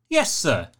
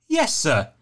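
No difference in how they are said.

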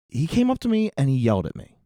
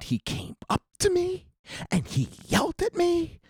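First: The line is said plainly and naturally. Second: The line is over-enunciated and theatrical. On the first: The speaker calls it right. "Instead of saying" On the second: The speaker calls it wrong. "The kid in Disney is going"

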